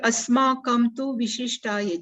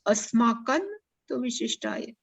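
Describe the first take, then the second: First: The nasal before 'tu' is made with closed lips. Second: The nasal before 'tu' is made at the teeth. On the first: The speaker calls it wrong. "Generally people speak like this" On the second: The speaker calls it right. "But we have to pronounce"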